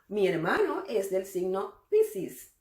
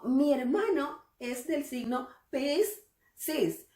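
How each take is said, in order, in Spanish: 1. Las palabras se juntan y un sonido casi desaparece. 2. Cada palabra y cada sonido se dicen por separado y completos. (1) "la gente normalmente habla de corrido" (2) "nadie anda por allí diciendo"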